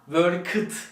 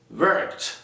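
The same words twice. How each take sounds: First: The ending is said as a full 'ed'. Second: The ending is said as a t sound. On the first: The speaker calls it wrong. "Worked değil" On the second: The speaker calls it right. "Ed takısını her zaman t gibi okuyalım"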